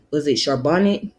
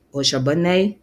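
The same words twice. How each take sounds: First: "Charbonnet" said as shar-BON-it; "Charbonnet" with the final t sounded; unsure pronunciation. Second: "Charbonnet" said as SHAR-buh-nay; "Charbonnet" with a silent final t; alternative pronunciation. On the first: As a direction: say "Charbonnet" with a short "-it" ending. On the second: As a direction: end "Charbonnet" on an open "-ay". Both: Shown as a demonstration. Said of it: "if I'm saying it right".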